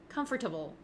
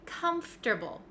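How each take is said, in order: First: Every syllable is said, including an 'or' sound. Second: The 'or' is dropped, going straight from f to t. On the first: The speaker calls it wrong. "a lot of my students like to say comfortable" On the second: The speaker calls it right. "We say comfortable"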